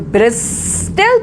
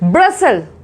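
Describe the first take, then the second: First: The t sound is clearly pronounced. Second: The t sound is left out entirely. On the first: The speaker calls it wrong. "It's the wrong pronunciation" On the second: The speaker calls it right. "The right is ब्रसल"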